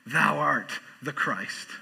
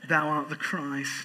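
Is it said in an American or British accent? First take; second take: American; British. First: It is said in his normal American accent. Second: It is said in a put-on English accent.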